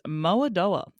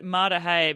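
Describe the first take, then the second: First: The name ends with a 'doa' sound. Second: The name ends with a 'dah-tay' sound. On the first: This reads the name as it is spelt. The speaker calls it wrong. "pronounce it as it's spelt" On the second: This is how the name is really pronounced. The speaker calls it right. "I'm so glad that you pronounced it"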